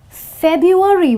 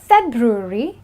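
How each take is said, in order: First: The r after the b is left out. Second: The r after the b is clearly pronounced. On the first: The speaker calls it wrong. "and not February, wherein you forget the R" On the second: The speaker calls it right. "So it's February"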